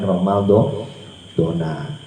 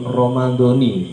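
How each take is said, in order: First: The word ends with an 'a' vowel. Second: The word ends with an 'i' vowel. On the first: The speaker calls it wrong. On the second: The speaker calls it right. "yang betul"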